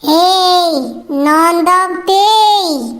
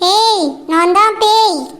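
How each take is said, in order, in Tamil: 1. பேய் போன்ற, மர்மமான குரலில் சொல்லப்படுகிறது. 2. சாதாரண பேசும் குரலில் சொல்லப்படுகிறது. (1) "வாய்ஸும் பேய் மாதிரி இருக்கணும்" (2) "இப்படி சொன்னா ரொம்ப நார்மலா இருக்கே"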